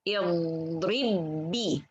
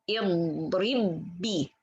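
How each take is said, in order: The two takes are said the same way.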